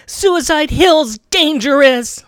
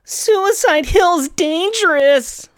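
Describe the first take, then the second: First: Slow and higher, drawn out; dramatic line read. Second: Even higher and slower, stretched; dramatic retake. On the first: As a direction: deliver it with portent. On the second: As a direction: push the warning further. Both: Shown as a demonstration. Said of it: "Let me try that again".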